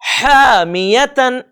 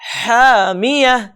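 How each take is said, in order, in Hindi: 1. शब्द n ध्वनि से खत्म होता है। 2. शब्द h ध्वनि से खत्म होता है। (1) "इसके बजाय" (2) "इस तरह से पढ़ेंगे"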